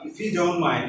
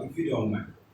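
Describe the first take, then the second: First: The pitch moves up and down expressively. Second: The pitch stays flat and robotic. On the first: The speaker calls it right. "Up and down, high sound, low sound, pitch" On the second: The speaker calls it wrong. "No, this is robotic"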